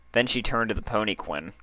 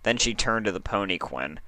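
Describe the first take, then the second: No difference in how they are said.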